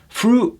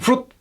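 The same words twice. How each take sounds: First: The vowel is drawn out long. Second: The vowel is clipped short. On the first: The speaker calls it right. "See how it's elongated" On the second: The speaker calls it wrong.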